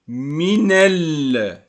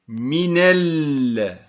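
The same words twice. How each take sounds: Both takes have the same delivery.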